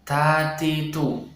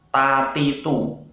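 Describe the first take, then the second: First: The consonants have a puff of breath. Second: The consonants have no puff of breath. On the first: The speaker calls it right. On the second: The speaker calls it wrong.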